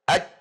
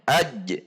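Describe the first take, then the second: First: The final j is held with no bounce. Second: The final j is released with a bounce. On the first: The speaker calls it wrong. "Tidak boleh dibaca hanya aj" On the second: The speaker calls it right. "namun harus ada qalqalahnya"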